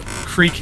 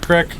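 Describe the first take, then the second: First: The vowel is long, like 'eek'. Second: The vowel is short, like 'ick'. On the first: This is how he says it himself. "I'm a creek guy" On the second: This is how the people around him say it. "I don't say crick"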